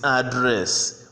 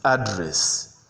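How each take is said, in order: First: "address" stressed on the second syllable; drawn-out "address", weight on the last syllable; verb pronunciation. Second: "address" stressed on the first syllable; noun pronunciation. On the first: Teacher contrasts verb with noun, second-syllable stress on "address". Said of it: "The verb is address". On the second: Teacher contrasts noun with verb, first-syllable stress on "address". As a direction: put the weight on the opening syllable of "address". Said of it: "whereas the noun is address". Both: Shown as a demonstration.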